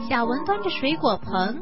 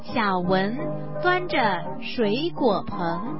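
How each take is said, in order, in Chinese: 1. 这句是用比较快的速度读的。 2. 这句是用正常、慢一点的速度读的。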